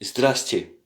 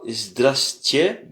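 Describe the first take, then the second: First: Здрасте said crisply as ZDRAS-te with a falling end; the correct quick Здрасте; right version. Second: Здрасте said slowly and stretched, the incorrect way; drawn-out wrong Здрасте; wrong version. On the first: Teacher giving the right Здрасте after the wrong one. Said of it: "mais Здрасте". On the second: Teacher showing the wrong Здрасте, slow and louder. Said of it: "C'est pas Здрасте". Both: Shown as a demonstration.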